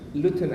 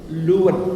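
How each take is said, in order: First: The t in the middle is clearly pronounced. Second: The t in the middle is dropped. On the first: The speaker calls it wrong. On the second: The speaker calls it right.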